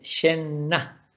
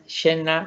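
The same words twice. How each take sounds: First: The middle n sound is long. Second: The middle n sound is short. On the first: The speaker calls it right. "sino que es känna. Si hay dos N, las dos N se pronuncian" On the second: The speaker calls it wrong. "Aquí no es känna"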